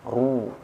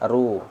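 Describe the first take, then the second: First: The r sound is heavy and thick. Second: The r sound is light and thin. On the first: "Tapi kalau tebal" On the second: "Kalau saya bacanya lemah bunyinya, ... yang tidak bervokal tebal gini bunyinya"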